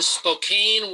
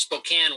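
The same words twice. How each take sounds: First: Spokane said as spo-KAYN, with a long A; spelling pronunciation. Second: Spokane said as spo-KAN, with a short A; local pronunciation. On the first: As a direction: say Spokane to rhyme with cane, drawn out. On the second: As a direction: say Spokane to rhyme with can. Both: Shown as a demonstration. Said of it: "Only it's pronounced Spokane".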